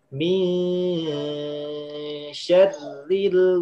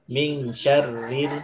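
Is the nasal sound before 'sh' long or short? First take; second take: long; short. First: The nasal before 'sh' is held long. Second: The nasal before 'sh' is cut short. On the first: The speaker calls it right. "dia harus ditahan ikhfa" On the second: The speaker calls it wrong. "Bukan min syarril"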